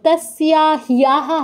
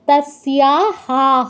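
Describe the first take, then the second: First: The final syllable has an added y glide. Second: The final syllable is a plain ha sound. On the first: The speaker calls it wrong. "হবে না" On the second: The speaker calls it right. "হবে"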